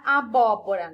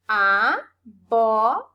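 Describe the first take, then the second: First: Said in the usual way. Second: "Abóbora" very slow and loud, a, BÓ, bo, ra; syllable by syllable. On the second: Shown as a demonstration. Teacher asking which syllable is strongest, "Abóbora" slowly split into syllables. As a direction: sound out "Abóbora" in four separate syllables, strong on bó. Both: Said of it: "Eu separei aqui".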